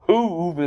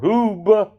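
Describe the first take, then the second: First: The name is said with a V sound. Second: The name is said with a B sound. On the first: "if you want to make it a V" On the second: "if you want to make it a B"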